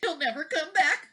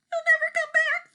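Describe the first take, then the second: First: Higher worried thought. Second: Far higher, louder despairing wail; near tears. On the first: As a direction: say it to herself, worried. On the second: Wife about to cry, high despairing wail. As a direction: let it break into a wail of despair. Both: A narrator's reading. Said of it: "thought Missus Wagon Wheel".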